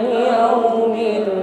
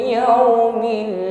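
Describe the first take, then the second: Both takes have the same delivery.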